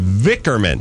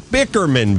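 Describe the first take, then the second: First: The word begins with a V sound. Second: The word begins with a B sound. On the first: The speaker calls it right. "There you go" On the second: The speaker calls it wrong. "No, not Bickerman"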